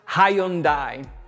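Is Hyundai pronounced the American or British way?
British. It is pronounced the British English way. "which is British English"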